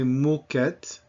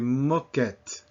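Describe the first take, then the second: First: The first vowel is a closed O. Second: The first vowel is an open O. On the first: The speaker calls it wrong. "We don't say moquette" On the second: The speaker calls it right. "we say moquette"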